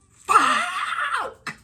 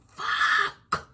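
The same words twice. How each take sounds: First: High, loud shouted curse; shocked curse. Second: Breathed curse under the breath; whispered curse. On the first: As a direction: blurt it out in alarm. Seeing the neighbour outside. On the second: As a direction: hiss it so she won't hear. Seeing her on the porch. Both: Retold or imitated.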